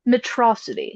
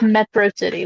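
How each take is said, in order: First: It is said as one word rhyming with atrocity. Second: It is said as two separate words, metro city. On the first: "pronounces it, by the way, Metrocity, so that it rhymes with atrocity" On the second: "instead of Metro City"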